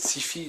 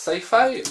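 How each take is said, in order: First: It is pronounced the French way. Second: It is pronounced the American English way. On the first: "nous on prononcerait peut-être sci-fi" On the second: "les Américains prononcent sci-fi"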